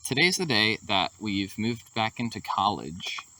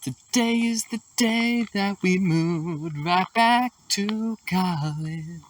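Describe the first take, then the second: First: It is said in a plain, flat way. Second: It is said with extra lively energy.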